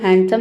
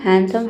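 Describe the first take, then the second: No difference in how they are said.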